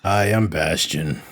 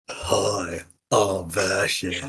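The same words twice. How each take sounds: First: Slow, irritated delivery; annoyed. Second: Soft, slow, deliberately bad copy of Bastion; mock him badly and quietly; awful impression of Bastion. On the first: Retold or imitated. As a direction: say it with mild annoyance. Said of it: "with, like, a more annoyed voice". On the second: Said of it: "that's an awful impression of me".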